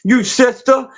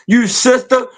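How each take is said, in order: Both takes have the same delivery.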